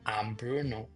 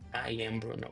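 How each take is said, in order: First: The words 'I am' are run together. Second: The words 'I am' are said separately. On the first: "If you don't want to say like" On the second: "you can say I am Bruno. It's not wrong"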